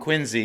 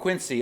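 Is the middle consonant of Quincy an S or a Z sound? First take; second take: Z sound; S sound. First: The middle consonant is a buzzing Z sound. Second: The middle consonant is a hissing S sound. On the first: This is how people from the Boston area say it. "because I'm from the Boston area. That's how you say it with the Z" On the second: This is how the dog's owner says it. "You call him Quincy"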